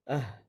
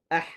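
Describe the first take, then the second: First: A breathy h from low in the throat. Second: A tight h squeezed in mid-throat. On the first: The speaker calls it right. "seperti mana orang yang lelah ... Keluar daripada bawah" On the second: The speaker calls it wrong. "bukannya disempitkan dengan tengah leher"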